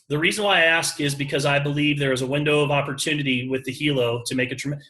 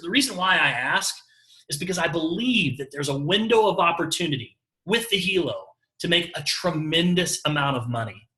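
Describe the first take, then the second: First: It sounds stiffly read in a flat voice. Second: It sounds natural, with varied pitch and pauses.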